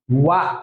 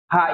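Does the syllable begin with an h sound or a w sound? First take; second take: w sound; h sound. First: It starts with a w sound: wa. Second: It starts with an h sound: ha. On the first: The character is used as a grammatical particle. "wa ang pronunciation yan" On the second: The character is read on its own or in a word. "Ha sa hiragana"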